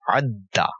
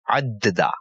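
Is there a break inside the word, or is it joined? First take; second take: joined; break. First: The word is said smoothly as one joined sound. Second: The word is split into two parts with a break. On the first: The speaker calls it right. "we will read it as one sound" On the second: The speaker calls it wrong. "If we read these two portions with a break"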